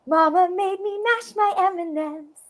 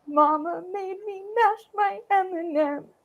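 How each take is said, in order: First: The voice sounds surprised. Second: The voice sounds sad. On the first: "Or just like surprised" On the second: "I could also be really sad about it"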